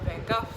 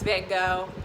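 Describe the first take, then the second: First: The name is said the European way. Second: The name is said the American way. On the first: "if you listen to people in Europe" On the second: "here in the U S we always talk about it's Van Gogh"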